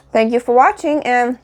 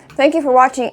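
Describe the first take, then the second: First: Talking through a mouthful; words round a bite of food; mouth full. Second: Said in the usual way. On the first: Real, not acted. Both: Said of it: "so I'm talking with my mouth full".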